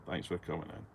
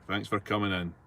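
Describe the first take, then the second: First: Softer muttered echo of the thanks; quiet repeat under the breath. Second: Said in the usual way. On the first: Real, not acted. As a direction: let it drop away as an afterthought. Repeats thanks, second time softer.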